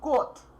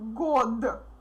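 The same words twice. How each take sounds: First: The word ends with a voiceless t sound. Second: The word ends with a voiced d sound. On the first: The speaker calls it right. "we pronounce it like t" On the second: The speaker calls it wrong. "So it's not год"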